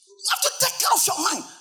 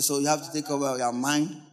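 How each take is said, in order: First: It is said with lively passion. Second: It is said flatly, without passion.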